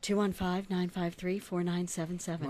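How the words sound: It is said in a put-on sexy voice.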